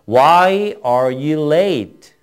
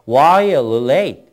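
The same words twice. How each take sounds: First: It is read at a slower, plain pace. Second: It is read at a faster pace.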